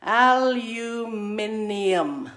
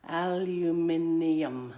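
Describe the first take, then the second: First: Aluminium very slow and loud, al-u-MIN-ium; model pronunciation. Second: Aluminium said slowly and lower, al-u-MIN-ium; a gentle second model of aluminium, slow; repeat-after-me model. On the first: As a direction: say aluminium slowly for the class to repeat. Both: Shown as a demonstration. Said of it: "Say it after me".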